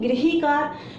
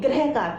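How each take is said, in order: First: The first syllable has an 'ri' sound. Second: The first syllable has an 'ra' sound. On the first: The speaker calls it right. "इसको हम गृहीकार बोलेंगे" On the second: The speaker calls it wrong. "ये mistake कर देते हैं कि गृहकार बोलते हैं"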